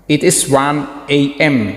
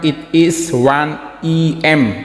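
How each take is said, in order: First: The first letter sounds like 'ay'. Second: The first letter sounds like 'eh'. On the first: The speaker calls it right. "Harusnya dia bilang" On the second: The speaker calls it wrong. "bukan ... sebenarnya bacanya bukan gitu"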